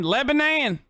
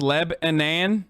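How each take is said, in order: First: Lebanon with the last syllable as NAN, said higher; local Lebanon. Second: Said in the usual way. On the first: Shown as a demonstration. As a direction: end Lebanon on a clear NAN. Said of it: "but Nan". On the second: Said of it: "Not non, but Nan".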